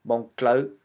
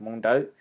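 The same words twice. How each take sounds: First: "Hmong Clo" with a cl cluster in "Clo"; louder, distinct "Clo" after "Hmong"; green dialect pronunciation. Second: "Hmong Dao" with a plain d in "Dao"; clearly modelled "Hmong Dao", no l in "Dao". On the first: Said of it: "if you speak the green dialect". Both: Shown as a demonstration.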